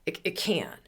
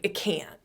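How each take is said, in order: First: "it can't" breathed out as a whisper. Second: Said in the usual way. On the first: Shown as a demonstration.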